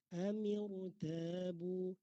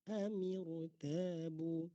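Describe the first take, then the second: No difference in how they are said.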